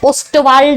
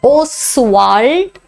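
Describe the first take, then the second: First: A t sound follows the s. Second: No t sound follows the s. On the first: The speaker calls it wrong. "ओस्टवाल्ड वगैरे करायचं नाही" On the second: The speaker calls it right. "उच्चार बघा"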